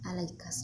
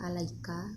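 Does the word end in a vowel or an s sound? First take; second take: s sound; vowel. First: The word ends in an s sound. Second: The word ends in a vowel.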